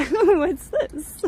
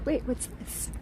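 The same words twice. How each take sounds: First: Laughing, a bit louder; laughing aloud. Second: Whispered, curious, under the breath; hushed whisper. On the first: Streamer spotting a detail in the mosaic, laughing. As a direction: say it again through a laugh. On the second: Streamer spotting something on the wall, whispering. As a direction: lean in and whisper it. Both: Real, not acted.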